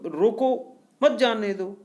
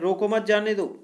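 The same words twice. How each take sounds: First: There is a pause after the word roko. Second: There is a pause after the word mat. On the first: Stop them; do not let them go. "दूसरे में कह रहे हैं कि रोको" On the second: Do not stop them; let them go. "पहले में कह रहे हैं रोको मत जाने दो"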